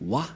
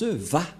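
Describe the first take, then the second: First: The syllable starts with a W sound. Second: The syllable starts with a V sound. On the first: The speaker calls it wrong. "les gens disent Wa. Mais en fait, ce n'est pas Wa" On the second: The speaker calls it right. "Les Juifs le prononcent Va"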